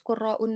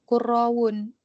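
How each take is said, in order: First: A glottal stop comes before the ending. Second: A w sound comes before the ending. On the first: The speaker calls it right. "tetap harus qurraun doang" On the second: The speaker calls it wrong. "nggak bisa qurrawun"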